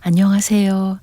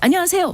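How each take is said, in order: First: It is said in a small, shy voice. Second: It is said in a bold, energetic voice.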